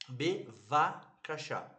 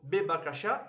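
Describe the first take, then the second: First: The second consonant is a V sound. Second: The second consonant is a B sound. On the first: The speaker calls it right. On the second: The speaker calls it wrong.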